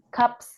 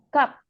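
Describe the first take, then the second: First: The word ends with an s sound. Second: The word ends without any s sound. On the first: The speaker calls it wrong. "Bukan gaps" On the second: The speaker calls it right. "tapi gap. Nggak ada S-nya"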